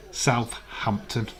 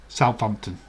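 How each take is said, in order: First: Slow South-hampton, the th and h both sounded; split into two words. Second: Southampton run together as one word. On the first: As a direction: pull Southampton apart into South and hampton, slowly. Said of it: "but to our William". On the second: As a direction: say Southampton quickly as one word, salf-hampton. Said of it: "is one word". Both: Shown as a demonstration.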